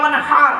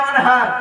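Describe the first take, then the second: First: The h is pronounced deep in the throat. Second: The h is pronounced as a plain h. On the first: And make a sacrifice. The speaker calls it right. "এই গলার ভেতর থেকে হেটা উচ্চারণ হবে।" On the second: Dig a canal with a spade. The speaker calls it wrong. "আর আমরা কি বলি?"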